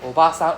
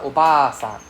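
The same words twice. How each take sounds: First: Obasan with a short, quick BA. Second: Obasan with a drawn-out BA; long A. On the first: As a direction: keep the middle A of Obasan short. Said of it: "You can hear the difference". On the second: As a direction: hold the middle A of Obasan long. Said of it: "the long dragging sound". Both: Shown as a demonstration.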